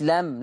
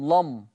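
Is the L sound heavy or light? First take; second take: light; heavy. First: The L is pronounced thin and light. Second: The L is pronounced thick and heavy. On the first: The speaker calls it wrong. "لم دي كده مرققة" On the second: The speaker calls it right. "أنا عايز مغلظة"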